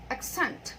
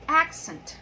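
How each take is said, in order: First: The stress is on the second syllable. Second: The stress is on the first syllable. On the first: It is the verb. "the stress is in the second syllable" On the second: It is the noun. "the stress is in the first syllable"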